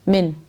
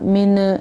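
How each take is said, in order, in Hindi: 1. अंतिम n को बिना स्वर के स्थिर रखा जाता है। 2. अंतिम n को एक स्वर के साथ हिलाया जाता है। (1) "मिन इस तरह पढ़ना है" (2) "ये नून हिलाना नहीं, इस तरह नहीं पढ़ना। मिन ये गलत है"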